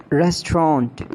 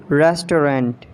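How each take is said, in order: First: "Restaurant" as RES-tront; British pronunciation. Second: "Restaurant" as RES-to-rant, three syllables; mispronounced restaurant. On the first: Shown as a demonstration. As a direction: squeeze "Restaurant" into two syllables. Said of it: "exact pronunciation according to the British". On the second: Acted. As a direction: sound the middle O in "Restaurant". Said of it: "you have to correct me".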